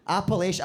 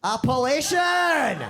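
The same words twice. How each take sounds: First: "Appellation." said again calmly; settled repeat. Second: "Appellation!" shouted high and slow; triumphant correction. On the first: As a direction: confirm "Appellation." at a normal pace. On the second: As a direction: bellow "Appellation!" slowly as the answer lands. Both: Real, not acted. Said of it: "what am I trying to say".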